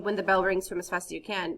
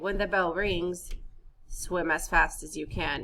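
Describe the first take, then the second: First: It runs on with no pause after rings. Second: There is a brief pause after rings. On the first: The speaker calls it wrong. "So you don't say" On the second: The speaker calls it right. "It means there's a brief pause"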